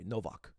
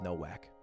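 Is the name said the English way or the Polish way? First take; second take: Polish; English. First: The name is said the Polish way. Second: The name is said the plain English way.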